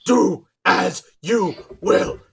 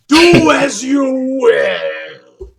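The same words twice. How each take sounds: First: Said in the usual way. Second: Very slow, loud, breaking into laughter; laughing proclamation. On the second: Acted. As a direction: boom it while laughing.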